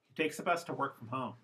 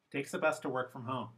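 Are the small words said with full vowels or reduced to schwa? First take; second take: reduced; reduced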